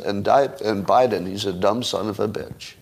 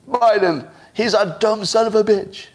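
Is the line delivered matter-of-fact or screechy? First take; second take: matter-of-fact; screechy. First: It sounds calm, even and casual. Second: It sounds loud, strained and pleading. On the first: The insult slips by like an ordinary statement. The speaker calls it right. "it's more matter-of-fact" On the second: The speaker seems out of control and weak. The speaker calls it wrong. "That would look out of control, a little screechy, a little pleading"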